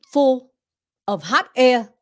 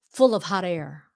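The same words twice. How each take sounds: First: The words are said separately with breaks. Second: The words are run together as one phrase. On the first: The speaker calls it wrong. "You don't wanna say it that way" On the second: The speaker calls it right. "Push it together"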